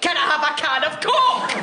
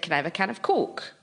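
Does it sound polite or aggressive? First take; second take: aggressive; polite. First: It is asked in an annoyed, aggressive way. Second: It is asked in a calm, polite way.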